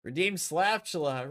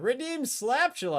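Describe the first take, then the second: First: Said in the usual way. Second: Slaptula lifted high and sung out; playful raised call; higher announcement. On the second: Shown as a demonstration.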